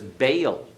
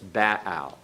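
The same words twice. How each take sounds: First: It is said with an English pronunciation. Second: It is said with a classical Hebrew pronunciation. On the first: "in our English pronunciation" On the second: "in the classical Hebrew"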